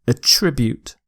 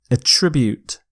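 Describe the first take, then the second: Both takes have the same delivery.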